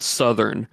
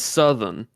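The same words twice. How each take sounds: First: Said in the usual way. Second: "Southern" in a Southern accent, R dropped. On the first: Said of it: "It's not Southern". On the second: Shown as a demonstration. Correcting the usual way for co-host, accented "Southern". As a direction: say "Southern" as "suth'n". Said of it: "It's Southern to me".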